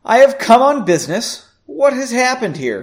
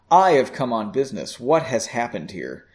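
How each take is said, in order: First: The voice sounds fairly neutral, not cold. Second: The voice sounds somewhat colder and more distant. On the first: The speaker calls it wrong. "that didn't sound coldly" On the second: The speaker calls it right. "I think that was a little better"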